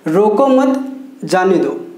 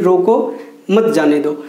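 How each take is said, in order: First: There is a pause right after mat. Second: There is a pause right after rōko.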